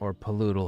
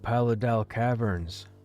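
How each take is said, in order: First: The second syllable has an 'oo' vowel. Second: The second syllable has an 'a' vowel. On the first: "Some people pronounce it Paludal" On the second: "I always said Paladal"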